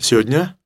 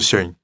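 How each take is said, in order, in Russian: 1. Некоторые звуки слова пропадают. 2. Большинство звуков слова пропадает. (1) "В лучшем случае говорите сегодня" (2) "а может быть, даже сегодня"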